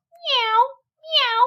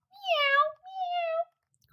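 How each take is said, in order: First: High mewing meow; cat meow. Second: Very high, soft mewing meow; a thin pleading mew; plaintive cat cry. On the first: Simpkin the cat interrupting the mice, high meow. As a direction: mew like a cat cutting in. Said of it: "interrupted Simpkin". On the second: Simpkin crying at the door, high and soft. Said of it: "cried Simpkin". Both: A narrator's reading.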